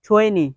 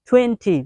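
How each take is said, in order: First: It is said in an American style. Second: It is said in a plain, non-American style. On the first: "American style শিখবেন তখন আপনাকে বলতে হবে twenty" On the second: "basic শিখবেন তখন আপনি শিখবেন twenty"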